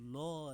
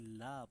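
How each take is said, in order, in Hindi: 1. स्वर भारी और गहरा है, 'lo' जैसा। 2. स्वर हल्का और बारीक है, 'la' जैसा। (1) "अब हम लो नहीं पढ़ेंगे" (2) "बल्कि ला पढ़ेंगे"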